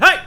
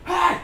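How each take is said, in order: First: Loud hey. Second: Softer hey. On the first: Pretend. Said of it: "Sorry if I blew out your ears there". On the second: Shown as a demonstration. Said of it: "That's a little further away".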